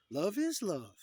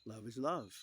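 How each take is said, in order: First: High, loud, gushing chant; exaggerated, high-pitched cheer; mock cheering slogan. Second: Said in the usual way. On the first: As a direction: belt it out as an over-the-top slogan. Mock slogan, repeated with gusto.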